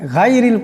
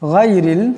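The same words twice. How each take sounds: First: The first consonant is light and thin. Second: The first consonant is heavy and thick. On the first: The speaker calls it wrong. "গায়রিল গায়রিল পড়া যাবে না" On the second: The speaker calls it right. "গানকে অল্প মোটা আওয়াজে পড়তে হবে"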